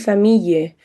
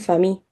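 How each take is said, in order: First: The ending is carefully and fully articulated. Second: The ending is swallowed, stopping on an i sound. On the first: The speaker is trying too hard to sound correct. "tú puedes decir famille" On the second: This is how people normally say it. "normalmente la gente se queda en el famille, en la I"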